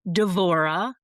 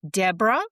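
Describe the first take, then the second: First: The name is said with a 'v' sound. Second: The name is said with a 'b' sound. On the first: This is the Hebrew form of the name. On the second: This is the English form of the name. "that's English"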